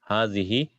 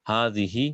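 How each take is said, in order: Both takes have the same delivery.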